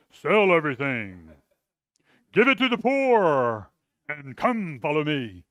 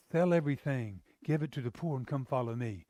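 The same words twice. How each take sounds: First: Louder, stern orders; harsh barked command. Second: Said in the usual way. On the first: Shown as a demonstration. Preacher shows the wrong way Jesus spoke, as a harsh loud command. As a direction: bark it like a drill sergeant. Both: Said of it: "I don't think Jesus goes".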